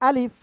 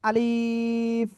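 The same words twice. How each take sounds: First: The vowels are kept short without stretching. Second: A vowel in the word is drawn out. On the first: The speaker calls it right. "কোনো টান হবে না" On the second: The speaker calls it wrong. "এক ভাই খুব সম্ভব বলতেছেন এরকম"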